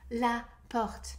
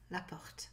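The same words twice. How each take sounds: First: Clearly voiced French word, demonstrated for learners; full-voiced French demonstration; pronounced out loud. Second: Whispered, barely voiced French word; hushed and much softer; quiet first reading. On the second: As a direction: say it under your breath. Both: Shown as a demonstration. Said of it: "Pronounce it out loud".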